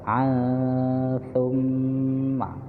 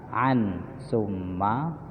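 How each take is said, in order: First: The n is hidden in a nasal hum. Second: The n is pronounced clearly before the next word. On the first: This is how it is recited. "tapi dibaca" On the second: This is how it is written.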